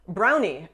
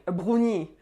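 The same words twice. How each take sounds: First: Said in the usual way. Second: "brownie" as French "broo-nee", throaty R; French accent. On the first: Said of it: "say English words in French". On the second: Shown as a demonstration. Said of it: "say them with the French accent".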